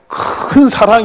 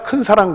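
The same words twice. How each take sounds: First: It is said with higher pitch and drawn out. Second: It is said flatly, without raised pitch or lengthening. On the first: The speaker calls it right. "큰 사랑 이렇게 해야 되는" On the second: The speaker calls it wrong. "그냥 큰 사랑 그러면 안 되고"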